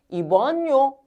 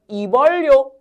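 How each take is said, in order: First: The middle consonant is an n sound. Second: The middle consonant is an l sound. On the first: The speaker calls it right. "연음돼 가지고" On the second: The speaker calls it wrong. "원래 우리가 배운 유음화로는"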